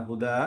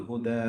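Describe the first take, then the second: No difference in how they are said.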